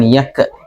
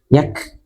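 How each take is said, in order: First: The k bounces with an extra vowel after it. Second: The k is released softly with flowing air. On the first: The speaker calls it wrong. "bukan yak ke" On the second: The speaker calls it right. "tapi yak"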